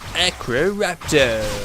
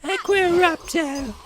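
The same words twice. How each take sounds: First: It is said in a put-on young male voice. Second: It is said in a put-on young female voice. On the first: "if you do it in the Harry format" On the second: "we have to do it in the Hermione uh, way"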